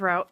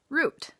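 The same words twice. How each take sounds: First: Route is said the speaker's Michigan way. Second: Route is said the common non-Michigan way. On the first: "like I had a paper route when I was little" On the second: "which a lot of people say as route, like the previous word"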